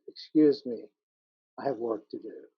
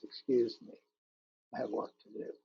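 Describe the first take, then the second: First: Said in the usual way. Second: 'Excuse me, I have work to do' repeated softer, fading to a breath; hushed closing echo of the poem's last line. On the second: Acted. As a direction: let the repeat die away to almost a whisper. Repeated sea's lines, fading.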